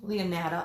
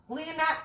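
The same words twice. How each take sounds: First: "Leonata" said lower and settled, fixing the name; "Leonata" brought down low as the settled version; corrected name. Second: "Leonata" tried high and quick, unsure of the name; "Leonata" tossed off high as a questioning attempt; first try at the name. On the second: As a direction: say "Leonata" as a hesitant first guess, pitch up. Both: Real, not acted. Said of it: "I can't even talk tonight".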